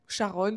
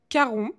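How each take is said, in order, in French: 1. Le nom commence par un son SH. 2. Le nom commence par un son K. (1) "c'est écrit C H A R O N, donc je le disais Charon" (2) "il dit que ça se prononce Caron"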